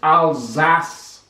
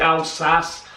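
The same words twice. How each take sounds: First: The word ends with a z sound. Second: The word ends with an s sound. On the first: The speaker calls it right. "the proper pronunciation is Alsace. They have the Z" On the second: The speaker calls it wrong. "I say Alsace"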